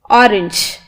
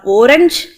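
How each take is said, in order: First: The last syllable sounds like 'inch'. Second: The last syllable does not sound like 'inch'. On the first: The speaker calls it right. "it is pronounced as inch" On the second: The speaker calls it wrong. "No, it's wrong"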